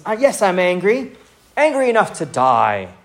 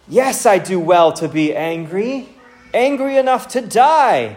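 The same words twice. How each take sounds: First: Lightly acted sulk, starting high and dropping; sulky, unhappy. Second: Indignant reading, pitch leaping up at the end; angry, emotional retort. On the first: Jonah answering God in self-pity, mildly sulky. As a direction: grumble it like a wounded complainer. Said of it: "sulky, and he is full of unhappiness". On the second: Acted. Jonah answering God about the plant, angry and emotional. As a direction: build to a high, emphatic outburst. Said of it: "you can feel the emotion in that verse".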